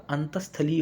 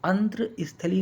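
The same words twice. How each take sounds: First: अंतस्थलीय joined as "antas-thali", no r; correct pronunciation. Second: अंतस्थली as "antra-isthali", with r; mispronounced word. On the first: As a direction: say अंतस्थलीय with a clear s before thali. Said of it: "होगा". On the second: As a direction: insert an r into अंतस्थली after ant. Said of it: "नहीं होगा". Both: Shown as a demonstration.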